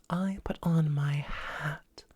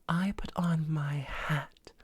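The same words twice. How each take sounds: No difference in how they are said.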